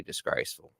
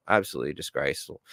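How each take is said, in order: First: Softer, breathless disgraceful; disgraceful under the breath; muttered disgust. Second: Lower, quicker absolutely disgraceful; firm low disgusted verdict; emphatic repeat. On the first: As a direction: let disgraceful drop to a disgusted hush. Ranting about media onslaught. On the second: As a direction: hammer home Absolutely disgraceful. Repeats his verdict on media. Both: Acted.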